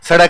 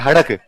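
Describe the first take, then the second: First: The word begins with an s sound. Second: The word begins with an h sound.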